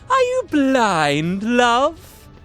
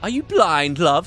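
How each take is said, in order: First: It is said in a put-on female voice. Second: It is said in his own plain voice.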